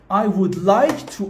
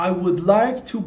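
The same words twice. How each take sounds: The two takes are said the same way.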